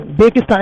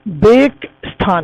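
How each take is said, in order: First: Said in the usual way. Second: बेगस्तान drawn out slowly as two parts, बेग and स्तान; split into two words. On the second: Shown as a demonstration. Teacher showing students the word hidden inside, बेगस्तान slowly split after बेग. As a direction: break बेगस्तान after बेग, with a clear gap. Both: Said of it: "ऐसा लग रहा है ना, बेग".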